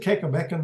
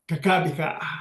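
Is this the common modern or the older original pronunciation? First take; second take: common modern; older original. First: It is said the common modern way. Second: It is said the older original way. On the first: This is how people say it today. The speaker calls it wrong. "they pronounce it Kekabeka now" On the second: This is the original form of the name. The speaker calls it right. "but it's pronounced uh, Kakabika"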